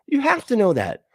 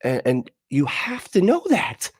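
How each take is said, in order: First: "You have to know that" jumps much higher, pressing on "have"; emphatic repeat. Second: Said in the usual way. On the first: Real, not acted. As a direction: repeat it with exasperated insistence, pitched up. Repeating the point harder.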